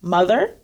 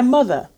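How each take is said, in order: First: The final R sound is clearly pronounced. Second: The final R sound is dropped, Southern style. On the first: "they may be pronounced mother" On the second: "they may sound much more as a kind Southern"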